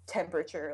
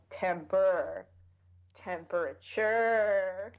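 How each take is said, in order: First: Said in the usual way. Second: "temperature" stretched slowly on its last syllable; drawn-out word. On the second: Shown as a demonstration. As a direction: draw out temperrr, then temperaturrre. Draws the word out for effect.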